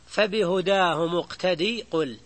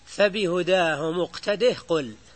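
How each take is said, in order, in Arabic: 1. تُحذف الهاء في الآخر قبل الكلمة التالية. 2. تُبقى الهاء في الآخر قبل الكلمة التالية. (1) "لكن عند حمزة والكسائي يقرآن" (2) "ففي حالة الوصل تثبت لها عند الخمسة"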